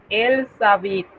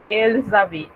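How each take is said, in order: First: "elles habitent" linked with an S sound; liaison sounded as S. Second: "elles habitent" linked with a buzzing Z; liaison with Z. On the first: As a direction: say "elles habitent" with S where Z belongs. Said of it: "en realidad ese sonido debería". ("elles habitent" con la liaison pronunciada como S) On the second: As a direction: join "elles habitent" with a voiced Z before the vowel. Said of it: "debería ser una Z". ("elles habitent" con liaison en Z sonora) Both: Shown as a demonstration.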